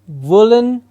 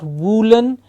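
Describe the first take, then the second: First: The first vowel is a short uh sound. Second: The first vowel is a long oo sound. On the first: The speaker calls it right. "it's uh" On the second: The speaker calls it wrong. "not woolen. Please remember it's not a long oo sound"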